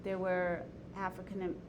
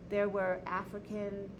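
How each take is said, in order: Both takes have the same delivery.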